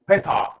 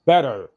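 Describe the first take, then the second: First: "بيتع" as "bet-ah", hard T and no final R; crisp T, silent R in "بيتع"; British dropped R. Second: "better" with a flapped T and a sounded final R; American pronunciation. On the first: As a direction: say "بيتع" British style, ending on an open "ah". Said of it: "يلغي الار". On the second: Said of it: "الامريكان يقول better". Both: Shown as a demonstration.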